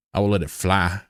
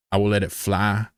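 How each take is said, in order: First: Stretched drawling take; put-on drawl. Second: Said in the usual way. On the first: Shown as a demonstration. Streamer testing the phrase for chat, drawled. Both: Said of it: "until I'm talking like this".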